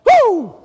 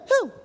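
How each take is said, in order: First: Loud, high, full-out "woo"; excited whoop. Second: Small, short "hoo"; a little son's mild copy of dad's whoop; child's imitation whoop. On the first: Retold or imitated. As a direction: whoop with all your excitement. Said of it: "I was still going with at it". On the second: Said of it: "He began to imitate me".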